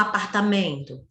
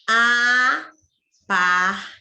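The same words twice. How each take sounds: First: Said in the usual way. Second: "Apartamento" slowly split into five syllables, starting loud; loud, segmented "Apartamento". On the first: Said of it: "Quantas sílabas?". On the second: Shown as a demonstration. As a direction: count out "Apartamento" with a long pause after each syllable. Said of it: "Cinco sílabas".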